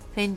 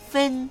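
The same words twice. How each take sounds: First: The word is said with a lower pitch. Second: The word is said with a high pitch. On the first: The speaker calls it wrong. "分じゃなくて" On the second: The speaker calls it right. "高く出る感じです"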